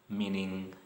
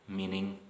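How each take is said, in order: Both takes have the same delivery.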